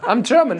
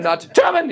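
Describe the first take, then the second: First: High, friendly German introduction; nice German. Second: High, hard German bark on GERMAN; menacing German. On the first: Telling fans he is the nice kind, high sweet voice. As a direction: introduce yourself high and harmless. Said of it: "I'm, like, a nice German". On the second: Showing fans the wrong kind of German, harsh German accent. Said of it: "I'm not that kind of German". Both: Shown as a demonstration.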